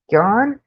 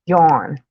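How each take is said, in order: First: "Yawn" with open ah vowel, rising; questioning pronunciation. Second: "Yawn" said low with a rounded aw vowel; yawn pronunciation. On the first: Streamer comparing two words aloud, questioning ah pronunciation. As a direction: ask "Yawn" with an ah, like yahn. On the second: Streamer testing how she says yawn, rounded aw pronunciation. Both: Shown as a demonstration. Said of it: "how to say both".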